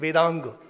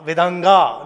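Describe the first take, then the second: First: The final vowel is short, not a long 'ah'. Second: The final vowel is a long open 'ah'. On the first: The speaker calls it right. "No, no, no, it is Vedanga" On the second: The speaker calls it wrong. "does not signify pronouncing as ah"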